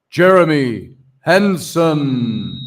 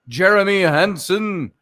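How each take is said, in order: First: The name is said in a booming, godlike voice. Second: The name is said in a plain speaking voice.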